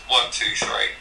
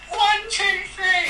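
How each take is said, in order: First: It is said in a normal voice. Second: It is said in a high-pitched voice.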